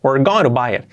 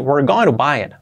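The two takes are said the same way.

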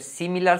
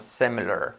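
First: The first vowel sounds like a clear i. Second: The first vowel sounds closer to an e. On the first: The speaker calls it wrong. "No va a ser similar" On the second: The speaker calls it right. "hacer la I como una E"

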